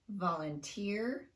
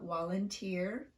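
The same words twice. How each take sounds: First: The word starts with a clear V sound. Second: The word starts with a W-like sound. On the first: The speaker calls it right. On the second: The speaker calls it wrong.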